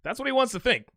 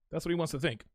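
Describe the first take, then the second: First: Said in the usual way. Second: Softer and lower, half to himself; quiet aside. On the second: Real, not acted. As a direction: mutter it under your breath. Repeats the line to himself.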